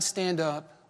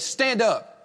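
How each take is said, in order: First: It is spoken gently and tenderly. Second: It is barked harshly like a command. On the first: It is a loving invitation from someone who understands. "he said it with a tear in his eye" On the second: It is an order to be obeyed. "he didn't say it in some way like a drill sergeant"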